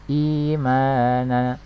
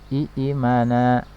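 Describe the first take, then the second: First: The first vowel is simply lengthened. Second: Two glottal-stop syllables open the word. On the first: This is the lightened form actually read. "agar lebih ringan" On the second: This is the original form. "imana asalnya i imana ya"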